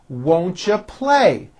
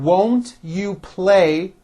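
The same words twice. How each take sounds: First: The words are reduced and run together. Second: Each word is said fully and separately.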